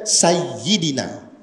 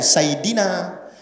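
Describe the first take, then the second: First: The middle y sound is held and doubled. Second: The middle y sound is short and single. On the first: The speaker calls it right. "ada tasydid, ada sabdu" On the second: The speaker calls it wrong. "Bukan Saidina"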